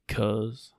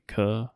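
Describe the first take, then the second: First: The word ends with a clear z sound. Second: The word ends on a vowel, no z. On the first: "he actually pronounced the Z this time" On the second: "With a cuh"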